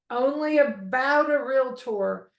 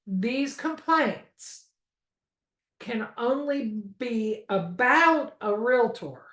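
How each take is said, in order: First: "Only about a Realtor" said again, pointed; repeated with stress. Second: "about a Realtor" slowed and stressed; stress on only about. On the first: Instructor repeating the point for students, firmly. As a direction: hit "Only about a Realtor" once more. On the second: Instructor stressing the key limit to the class, slow and pointed. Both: Shown as a demonstration. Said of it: "Did you hear how I said that?".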